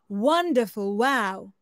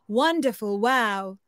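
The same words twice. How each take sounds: First: It is said at a middle pitch. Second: The same.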